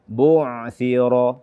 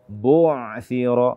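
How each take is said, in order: The two takes are said the same way.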